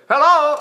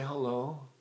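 First: It sounds excited and happy. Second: It sounds upset and down.

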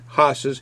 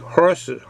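First: The R sound is dropped, Boston style. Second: The R sound is clearly pronounced. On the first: The speaker calls it wrong. "I know I'm saying the Boston accent" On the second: The speaker calls it right. "It should be horses"

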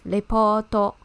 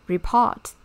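First: It is said with Japanese loanword pronunciation. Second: It is said with English pronunciation.

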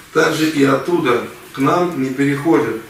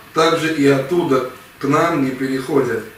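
The two takes are said the same way.

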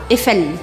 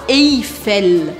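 First: The first vowel is a plain e sound. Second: The first vowel is a diphthong with an i-glide. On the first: The speaker calls it right. "EI em francês tem som de E" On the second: The speaker calls it wrong. "não é para você falar Eiffel. Não é para pronunciar esse I"

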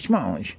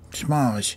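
First: The name is said fast. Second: The name is said slowly.

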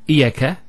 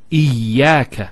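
First: The y sound is single and short. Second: The y sound is doubled and held longer. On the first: The speaker calls it wrong. "It's not iyaka" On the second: The speaker calls it right. "Notice the ya gets a double vowel because of the shadda there"

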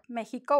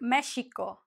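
First: The x is said as a throaty h sound. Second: The x is said as a sh sound. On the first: This is today's way of saying it. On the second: This is how it was said long ago.

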